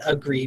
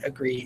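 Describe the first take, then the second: First: The first vowel is a full vowel. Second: The first vowel is a weak schwa. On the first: This is how the word is spelled. "We don't we don't spell it agree" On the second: This is how the word is spoken. "but we say it agree"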